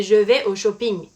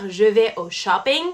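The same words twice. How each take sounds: First: English loanword "shopping" in a French accent; frenchified "shopping", French accent throughout. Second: English-accented "shopping" in a French sentence. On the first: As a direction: say "shopping" as a French speaker would. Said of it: "avec un accent français". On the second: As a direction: say "shopping" as an English word, English pronunciation. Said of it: "on ne va pas dire". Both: Shown as a demonstration.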